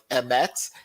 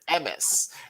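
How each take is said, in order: First: The word ends with a t sound. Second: The word ends with an s sound. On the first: This is the modern Hebrew pronunciation. "we would learn to say words like emet" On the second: "our parents and grandparents... would say words like emes"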